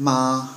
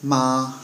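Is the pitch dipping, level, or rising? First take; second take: level; level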